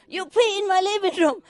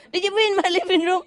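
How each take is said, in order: First: High scolding yell; yelling at the dog. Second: Fast, high scolding question; yelling question. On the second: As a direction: demand an answer, quick and high. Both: Retold or imitated. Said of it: "I keep yelling at him".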